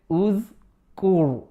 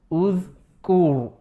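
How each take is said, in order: No difference in how they are said.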